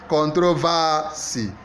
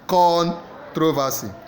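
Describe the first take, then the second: First: The stress is on the third syllable. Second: The stress is on the first syllable. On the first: "Third syllable" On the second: "A first syllable"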